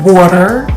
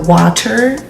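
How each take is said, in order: First: It is said in a Philadelphia accent. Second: It is said in a general American accent. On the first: "like how we say in Philly" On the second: "like how y'all say everywhere else"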